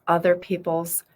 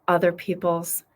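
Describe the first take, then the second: No difference in how they are said.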